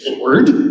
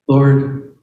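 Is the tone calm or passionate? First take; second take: passionate; calm. First: It is said in a passionate, urgent tone. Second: It is said in a calm, flat tone.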